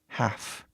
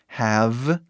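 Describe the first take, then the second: First: The word ends with a voiceless f sound. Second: The word ends with a voiced v sound. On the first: It is the auxiliary meaning obligation. "para F" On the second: It is the main verb meaning to own. "Ele vai de V"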